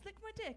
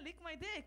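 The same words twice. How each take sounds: First: It is spoken with a British accent. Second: It is spoken with an Israeli accent. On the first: "like British accent" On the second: "Like Israeli accent will come"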